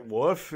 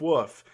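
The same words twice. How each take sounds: First: Woof with a questioning rise; puzzled woof. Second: Said in the usual way. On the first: Retold or imitated. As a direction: try the word out, unsure. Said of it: "And then he's like". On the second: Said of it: "he's like".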